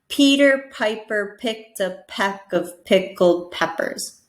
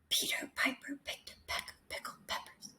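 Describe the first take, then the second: First: It is spoken aloud in a normal voice. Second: It is whispered without a voiced sound.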